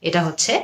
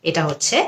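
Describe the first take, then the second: The two takes are said the same way.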